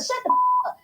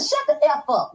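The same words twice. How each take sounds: First: Imitating a high squealed put-down; mock squeal. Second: Said in the usual way. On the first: Telling the man off on her live, in a high mock squeal.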